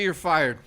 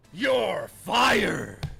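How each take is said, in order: First: Said in the usual way. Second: Shouted with YOU'RE punched hard; shouting. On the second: Real, not acted. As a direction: yell it at the fired chatter.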